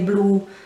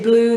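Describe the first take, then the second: First: The final vowel is deeper and lengthened. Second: The final vowel is short, English-sounding. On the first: "they say blue. The U has a bit of a deeper sound" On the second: "Whereas we would say blue"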